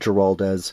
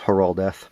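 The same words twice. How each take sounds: First: It is said with an English-style pronunciation. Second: It is said with a Spanish-style pronunciation. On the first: The speaker calls it wrong. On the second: The speaker calls it right. "it's Giraldez"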